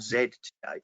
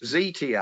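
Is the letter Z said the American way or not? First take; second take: non-American; American. First: The letter Z is said the non-American way. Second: The letter Z is said the American way.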